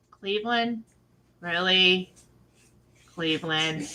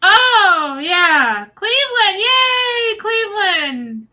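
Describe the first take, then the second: First: Low, quiet deadpan questioning; unimpressed disbelief. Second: High, loud fake-excited squeal; mock cheering. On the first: Pretend. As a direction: drop it down, dismayed, with pauses between. Her own contrasting unimpressed reaction. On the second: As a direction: cheer like an over-eager crowd, then let it sag. Mocking everybody's forced cheer.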